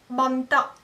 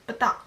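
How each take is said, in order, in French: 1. Le mot a un son n avant le t. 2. Le mot n'a pas de son n avant le t.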